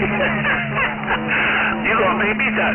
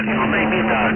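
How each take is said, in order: First: Laughing. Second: Said in the usual way. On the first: Real, not acted. Laughs at the cool radio voice.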